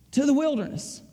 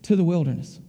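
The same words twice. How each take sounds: First: Said in the usual way. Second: Low, firm voice of God sending him off; a much lower, weighty order, one word at a time; lowered voice of a commanding father; stern command. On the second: Retold or imitated. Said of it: "And then he said".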